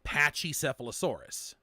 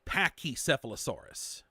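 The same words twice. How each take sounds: First: The first syllable sounds like 'patch'. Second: The first syllable sounds like 'pack'. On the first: The speaker calls it right. "properly supposed to be pronounced" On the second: The speaker calls it wrong. "in there they say"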